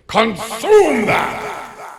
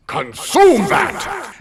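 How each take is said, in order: First: High, slow, booming yell; yelling command. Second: High, loud, slow commanding bark; priest's stern command. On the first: Priest yells at her in front of the congregation, booming command. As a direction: shout it before the whole congregation. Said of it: "He then again yells". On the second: Priest repeats his order to the frozen churchgoer, commanding bark. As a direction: bellow the order from the altar. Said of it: "And again, he says". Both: Retold or imitated.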